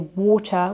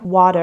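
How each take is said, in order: First: The middle T is a clear T sound. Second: The middle T sounds like a soft D. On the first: "In British English, we say water with the T sound" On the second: "in American English, they would say something like water, and it's more of a D sound"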